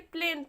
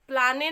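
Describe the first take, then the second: First: It is one syllable with an 'ay' vowel. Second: It is two syllables with an 'aa' vowel. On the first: The speaker calls it right. "प्लेन पढ़ेंगे" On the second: The speaker calls it wrong. "प्लाने नहीं पढ़ेंगे"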